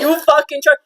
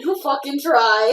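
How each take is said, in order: First: Rough, serious half-orc warning; gruff orc growl. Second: Gruff orc growl. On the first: Acted. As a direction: growl it like a scarred orc cook. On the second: Retold or imitated. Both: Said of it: "He's pretty damn serious when he says that".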